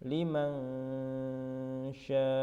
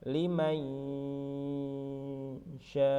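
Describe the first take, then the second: No difference in how they are said.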